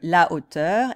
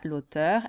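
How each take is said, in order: First: The article keeps its full vowel before hauteur. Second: The article loses its vowel and joins the word. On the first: The speaker calls it right. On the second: The speaker calls it wrong.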